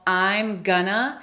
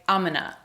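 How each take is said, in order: First: The phrase is said as I'm gonna. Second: The phrase is squeezed further and said very fast. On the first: "I'm gonna becomes" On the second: "we reduce gonna even further"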